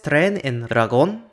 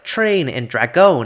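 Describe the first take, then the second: First: The tr and dr clusters sound Spanish. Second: The tr and dr clusters sound English.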